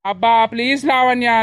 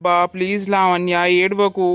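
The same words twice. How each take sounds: First: Exasperated, pleading through anger; irritated. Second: Gentle, apologetic plea; calm her down tenderly; soothing. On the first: Husband snapping at his crying wife, exasperated. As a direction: shut her down, fed up. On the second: Husband comforting his crying pregnant wife, gently. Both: Acted.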